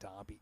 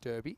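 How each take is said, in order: First: It is said the way the rest of the world says it. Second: It is said the Western Australian way.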